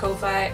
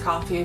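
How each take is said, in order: First: It is said unlike the word coffee. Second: It is said exactly like the word coffee. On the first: It refers to the website, not the drink. "I call it Ko-Fi" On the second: It is thought to be the official pronunciation. "I think it's pronounced coffee"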